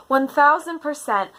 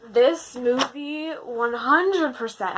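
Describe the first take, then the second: First: "one thousand percent" said as an emphatic correction; stress on thousand. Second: Said in the usual way. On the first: Real, not acted. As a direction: lean hard into "thousand". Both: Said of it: "actually, scratch that".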